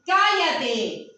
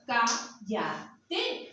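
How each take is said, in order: First: It is said loudly. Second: It is said softly.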